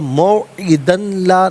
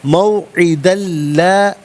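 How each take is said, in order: First: The n sound is heard separately before la. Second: The n sound merges fully into the l. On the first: The speaker calls it wrong. "नहीं" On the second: The speaker calls it right. "इसे ला की लाम के साथ मिलाएंगे, लाम की आवाज़ को अदा किया जाएगा"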